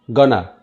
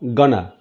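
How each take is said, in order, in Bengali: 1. শব্দগুলো মিশে গিয়ে একটি সংক্ষিপ্ত শব্দ হয়ে যায়। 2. শব্দগুলো মিশে গিয়ে একটি সংক্ষিপ্ত শব্দ হয়ে যায়।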